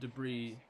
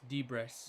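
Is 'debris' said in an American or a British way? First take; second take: American; British. First: It is said the familiar American way. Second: It is said the unfamiliar British way. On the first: "I have never heard the word debris" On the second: "that's how the British pronounce debris"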